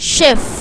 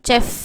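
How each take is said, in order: First: The word begins with an 'sh' sound. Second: The word begins with a 'ch' sound. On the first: The speaker calls it right. "அந்த இஷ் கரெக்டான உச்சரிப்பு" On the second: The speaker calls it wrong. "நிறைய பேர் வந்து சே சே சவுண்டில் படிப்போம்"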